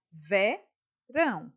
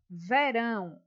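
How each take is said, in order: First: "Verão" said slowly, syllable by syllable, ve-rão; syllables split apart. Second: Said in the usual way. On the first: Shown as a demonstration. Teacher showing pupils how "Verão" separates, slow and syllabified. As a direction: stretch out "Verão" to show where it splits. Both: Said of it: "olha só como ela se separa".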